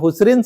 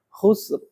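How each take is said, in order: First: The word ends with an added 'in' sound. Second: The word stops sharply on the 'r' sound. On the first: The speaker calls it wrong. "kalau nyebutnya khusrin salah" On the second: The speaker calls it right. "harus khusr"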